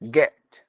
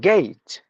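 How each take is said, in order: First: The vowel is a short single e sound. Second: The vowel glides as a two-part diphthong. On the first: The speaker calls it wrong. "we only say e. We say get" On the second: The speaker calls it right. "but it should be gate"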